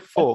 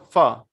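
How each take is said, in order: First: The first vowel sounds like 'oh'. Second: The first vowel sounds like 'ah'. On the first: The speaker calls it wrong. "don't say fo" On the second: The speaker calls it right. "It's a fa"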